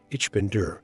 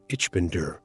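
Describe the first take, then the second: No difference in how they are said.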